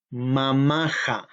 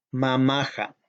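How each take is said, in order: First: Mamaja said slowly, syllable by syllable, ma-ma-ja; teacher modelling mamaja slowly; slow model pronunciation. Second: Mamaja said once more at normal pace, falling; plain repeat. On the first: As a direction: spell out mamaja slowly for learners. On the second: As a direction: repeat mamaja smoothly after the slow model. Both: Shown as a demonstration. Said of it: "decir mi mamá es".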